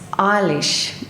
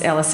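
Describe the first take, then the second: First: The name ends with an 'sh' sound. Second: The name ends with an 's' sound. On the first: The speaker calls it right. "it rhymes with my wish" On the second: The speaker calls it wrong. "It's not the right, um, not the right pronunciation"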